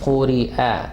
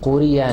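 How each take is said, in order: First: A glottal catch separates the final vowel sharply. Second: The syllables run together with no glottal catch. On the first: The speaker calls it right. "हमजा की आवाज सेपरेट होती है, जर्क होती है" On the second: The speaker calls it wrong. "कोरिया नहीं"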